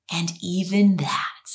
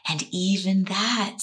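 First: Whispered. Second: Said in the usual way. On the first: Shown as a demonstration. Self-acceptance quote, whispered.

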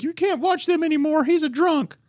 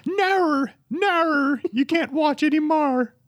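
First: Very high, shrill-free mock Australian parent; a much higher, hammed-up stab at an Australian accent; bad mock Australian accent, pitched way up; attempted Australian accent. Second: Very high, hammed-up Australian accent; second try at an Australian accent, much higher; mock Australian accent. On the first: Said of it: "I can't do an Australian accent". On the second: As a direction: have another go at an Australian accent, pitched way up. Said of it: "I was gonna try".

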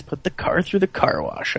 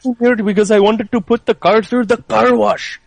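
First: Said in the usual way. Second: Imitating an Indian movie character; quoting the guy in a lilting Indian accent. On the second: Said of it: "Indian guy was like".

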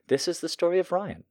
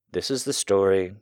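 First: Said high through a laugh; breaking into laughter. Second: Said in the usual way. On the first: Real, not acted. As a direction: giggle while restarting the line. Restarts the line, laughing.

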